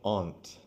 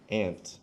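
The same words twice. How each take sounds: First: The word is said in a posh, fancy way. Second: The word is said in an ordinary, everyday way.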